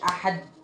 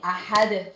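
First: The final d ends flat without any bounce. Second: The final d is released with a bouncing echo. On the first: The speaker calls it wrong. "مقولش احد" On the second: The speaker calls it right. "بهز كده شوية الحرف"

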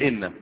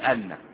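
First: The word begins with an 'i' vowel. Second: The word begins with an 'a' vowel. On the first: The speaker calls it right. "تقول إن" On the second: The speaker calls it wrong. "ولا تقول أن"

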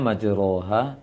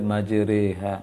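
First: The vowel after the r is an open a. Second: The vowel after the r leans toward e. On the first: This is how the word is written. "Tulisannya majroha" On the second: This is how the word is actually read here. "tetapi dibaca majriha"

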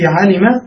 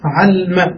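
First: The middle consonant is followed by a short vowel. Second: The middle consonant has no vowel after it.

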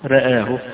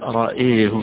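First: Both vowels lean slightly toward e. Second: Only the second vowel leans toward e. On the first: "بالتقليل، يعني الراء مرققة لا هي ممالة ولا هي مفتوحة" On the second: "وحيميل الهمزة لوحدها"

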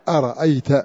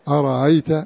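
First: The middle glottal stop is said fully. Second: The middle glottal stop is softened toward a vowel. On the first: This is the reading of the majority. "بعضها بألف مهموسة أرأيت" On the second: This is the reading of Qalun. "قالون بتسهيل أرأيت"

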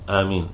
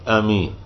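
No difference in how they are said.

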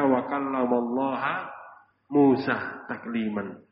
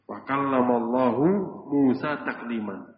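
First: The word Allah ends with an 'a' vowel. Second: The word Allah ends with a 'u' vowel. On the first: Moses spoke to God. The speaker calls it wrong. "dibaca wa kallamallaha" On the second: God spoke to Moses. The speaker calls it right. "Kalau wa kallamallahu dibaca marfu dhammah hu"

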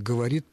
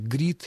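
First: All syllables of the word are pronounced. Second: The word is squeezed into one short syllable.

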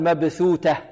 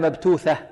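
First: The first is th, the second t. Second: The first is t, the second th. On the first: "ولا نقول مبثوتة" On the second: "ولا مبتوثة"

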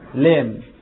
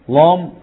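First: The lam is pronounced light and thin. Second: The lam is pronounced heavy and full. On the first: The speaker calls it right. "الاصل في اللام الترقيق" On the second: The speaker calls it wrong. "ولا حد يقول لام لام"

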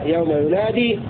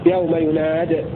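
First: The verb ends with a long ee vowel. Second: The verb ends with a short i vowel. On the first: "فله إثبات الياء" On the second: "وله حذفها"

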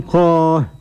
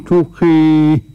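First: The final long vowel is an open a. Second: The final long vowel is close to e. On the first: "قرأ بالفتح" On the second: "بالإمالة الكبرى"

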